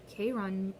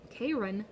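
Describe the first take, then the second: No difference in how they are said.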